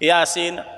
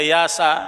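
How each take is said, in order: First: The word ends with a long 'seen' sound. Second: The word ends with a short 'sa' sound. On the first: The speaker calls it right. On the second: The speaker calls it wrong.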